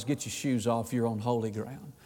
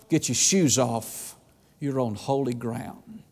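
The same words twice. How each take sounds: First: Low, much softer, grave voice of God; solemn divine command. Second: Low, slow and soft, each word weighed; slow it down to a reverent hush; slow hushed command. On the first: God warns Moses at the bush, low and hushed. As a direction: hush it down like holy awe. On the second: The Lord tells Joshua to remove his shoes, slow and hushed. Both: Acted.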